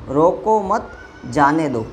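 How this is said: There is a pause after the second word. Do not stop him, let him go. "यहाँ है मत के बाद में"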